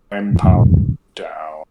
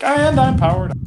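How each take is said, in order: First: Low, slow shutdown voice; lower, slower, winding-down machine; powered-down robot. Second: Much higher, perky reboot voice; spring back online with a high chirp; bright jump up in pitch, fully charged; powered-up robot. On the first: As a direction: sink into a flat power-off drone. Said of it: "just be like". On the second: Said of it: "you're like". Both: Pretend.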